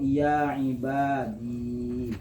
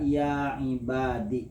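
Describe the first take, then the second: First: The word ends in a long i sound. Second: The word ends in a short i sound. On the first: "isbatul ya isakinati, menetapkan iya yang sukun" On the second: "membuang ya dan cukup barisnya ke bawah"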